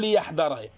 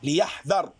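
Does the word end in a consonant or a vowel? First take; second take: vowel; consonant. First: The word ends with a short vowel after the consonant. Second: The word ends on a bare final consonant. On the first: It gives a purpose: so that he bewares. The speaker calls it wrong. "ليحذر تصير اللام لام التعليل ويصير الفعل منصوب" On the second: It is a command: let him beware. The speaker calls it right. "ليحذر بالجزم بالسكون"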